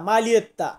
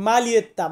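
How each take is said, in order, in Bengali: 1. মাঝখানে একটা স্পষ্ট L-এর শব্দ শোনা যায়। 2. মাঝখানে একটা স্পষ্ট L-এর শব্দ শোনা যায়।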